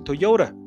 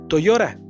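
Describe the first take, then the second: First: It is pronounced the English way. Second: It is pronounced the Mexican Spanish way. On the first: "En inglés más o menos se pronuncia Toyota" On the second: "En México lo decimos Toyota"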